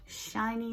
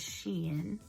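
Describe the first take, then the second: First: The name is said as one syllable, like 'shine'. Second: The name is said as two syllables, 'she-in'. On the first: The speaker calls it wrong. "which that's not the way you say that" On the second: The speaker calls it right. "That is the way you say that word"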